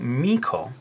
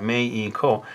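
First: The name is said with English vowels and a stressed first syllable. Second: The name is said with Japanese vowels and even syllables. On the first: This is how the singer herself says her name. "and so she started saying MEIKO" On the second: This is how the name is said in Japan. "which would be Meiko. And that's what I've written over here in hiragana"

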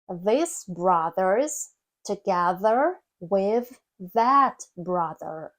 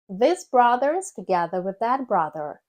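First: The sentence is read at a slow pace. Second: The sentence is read at a faster pace. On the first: "давайте з вами прочитаємо цю скоромовку повільно" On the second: "Тепер давайте прискоримось"

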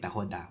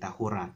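First: The consonant before the final vowel is d. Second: The consonant before the final vowel is r. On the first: The speaker calls it wrong. "We don't say tahoda" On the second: The speaker calls it right. "we say tahura"

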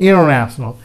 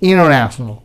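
No difference in how they are said.

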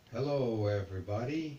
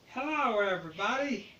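First: The voice sounds older, like a grown man. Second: The voice sounds younger, like a boy.

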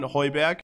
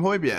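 First: The name is given a German pronunciation. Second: The name is given an English pronunciation. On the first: "the German commentators used to always call him Hoiberg in German" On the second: "the English commentators call him Hoiberg"

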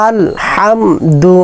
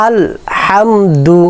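No difference in how they are said.

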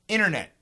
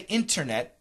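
First: The T after the N is dropped. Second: The T after the N is pronounced. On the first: "usually we cancel because of the N" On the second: "We don't say internet"

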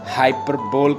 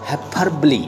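First: The word ends in a single 'bowl' syllable. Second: The word ends in two syllables, 'buh-lee'. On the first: The speaker calls it wrong. "बहुत सारे लोग इसकी pronunciation जो है वो wrong pronounce करते हैं" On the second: The speaker calls it right. "The exact pronunciation is हाइपरबली"

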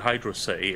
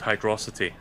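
First: It is said as two separate words. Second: It is said as one blended word. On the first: The speaker calls it right. "it's called Hydro City" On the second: The speaker calls it wrong. "it's not called Hydrocity"

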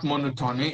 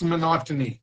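First: The stress falls off the second syllable. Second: The stress falls on the second syllable. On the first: The speaker calls it wrong. "And it is not monotony" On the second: The speaker calls it right. "it's monotony"

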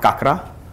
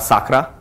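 First: The word begins with a k sound. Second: The word begins with an s sound. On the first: "not kakra" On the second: "or sakra"

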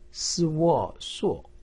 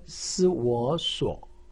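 First: The pitch falls sharply from high. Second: The pitch dips low, then rises. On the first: "四声" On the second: "三声"

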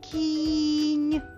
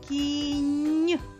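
First: The first sound is drawn out. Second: The last sound is drawn out. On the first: "Я знову буду голосом виділяти кожен звук у цьому слові" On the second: "Назви звук в кінці слова"

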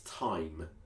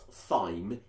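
First: The word begins with a plain 't' sound. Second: The word begins with a 'th' sound. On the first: The speaker calls it right. "it's thyme" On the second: The speaker calls it wrong. "It's not thyme"

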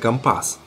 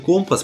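First: The stress is on the second syllable. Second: The stress is on the first syllable. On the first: This is how sailors say it in their slang. "моряки на своем сленге говорят именно «компас»" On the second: This is how it is said on land. "произносится так на суше"

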